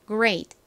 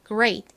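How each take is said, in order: Both takes have the same delivery.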